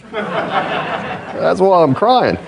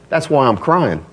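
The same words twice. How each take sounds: First: Higher, drawn-out retelling through laughter; milk the joke, slowly and higher; amused punchline repeat. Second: Said in the usual way. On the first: Retold or imitated. Preacher repeating the poor man's punchline, amused.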